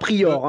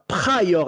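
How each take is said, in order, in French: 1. Le nom Pryor est prononcé à la française. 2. Le nom Pryor est prononcé à l'anglaise. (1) "et non pas" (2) "j'ai fait l'effort de dire Pryor"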